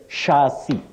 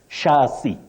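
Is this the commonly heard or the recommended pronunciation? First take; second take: recommended; recommended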